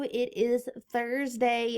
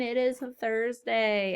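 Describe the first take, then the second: First: Slow, leaning on IS in "It is Thursday"; slow emphatic "It IS Thursday"; stress on IS. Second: Slow with weight on "is" and a falling end; emphatic slow Thursday; stress on IS again. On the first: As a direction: draw out "is" playfully. Teacher stressing the day. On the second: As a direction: press "is" and let it drop. Repeats the day with emphasis. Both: Shown as a demonstration.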